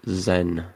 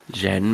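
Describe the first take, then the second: First: The name begins with a 'z' sound. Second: The name begins with a 'j' sound. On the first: The speaker calls it wrong. "that's not how you say it" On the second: The speaker calls it right. "Jen, maybe?"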